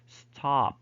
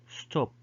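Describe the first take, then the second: First: It has an American more open vowel. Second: It has a British short rounded vowel.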